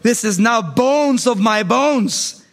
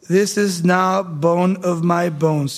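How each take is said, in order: First: It is said in an excited, lively way. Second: It is said in a calm, mellow way. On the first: The speaker calls it right. "Adam probably said this in this tone of voice" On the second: The speaker calls it wrong. "I don't think he was mellow"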